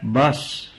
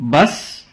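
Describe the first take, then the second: First: "बस" said softly as a short statement; vendor's final word. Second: "बस" echoed with a rising, questioning tune. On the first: Pani puri seller to a long-eating customer, a soft, final "बस". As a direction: imitate the vendor softly closing with "बस". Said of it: "तो वह कहता है". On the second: Customer answering the pani puri seller, "बस" as a questioning echo. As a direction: turn "बस" into a question, pitch climbing. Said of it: "उसकी बस सुनकर मैं कहता हूं". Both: Retold or imitated.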